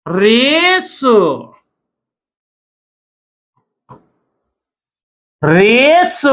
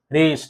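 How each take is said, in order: First: रेस with a long rising vowel, ending on स; silent final e. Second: Said in the usual way. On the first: Shown as a demonstration. Teacher showing a silent letter, drawn-out रेस. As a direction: stretch रेस upward, no vowel at the end. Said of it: "यहां पर कुछ नहीं पढ़ रहे". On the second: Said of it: "यहां पर कुछ नहीं पढ़ रहे हैं रेस को".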